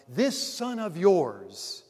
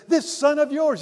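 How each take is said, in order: First: This son of yours, drawn out slowly with weight on This; This dragged out slowly in scorn; slow contemptuous stress on This. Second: This son of yours, loud and high, This hit hard; This punched loud and high in contempt; scornful stress on This. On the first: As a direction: lean slowly on This to disown the brother. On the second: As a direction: spit out This to disown the brother. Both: Acted. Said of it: "he even acknowledges that the brother isn't even his brother".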